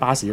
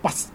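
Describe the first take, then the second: First: It is said with Cantonese sounds, as baa-si. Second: It is said with English sounds, as bus. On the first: The learner has adopted the local form of the word. The speaker calls it right. "學翻廣東話嘅巴士呢個讀音" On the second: The word is treated as a foreign word. The speaker calls it wrong. "就唔會無端端就變咗bus"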